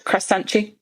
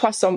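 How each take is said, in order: First: It is said with a Brazilian accent. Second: It is said with a plain accent.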